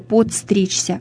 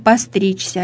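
First: It is said with a d sound after po. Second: It is said without a d sound after po. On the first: The speaker calls it wrong. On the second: The speaker calls it right.

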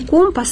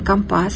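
First: The stress is on the first syllable. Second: The stress is on the second syllable. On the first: This is the standard form. The speaker calls it right. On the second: This is how sailors say it. The speaker calls it wrong.

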